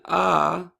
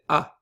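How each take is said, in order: First: The vowel is held long. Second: The vowel is cut short. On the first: "Instead of saying ah" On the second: "it cuts the length of the syllable down"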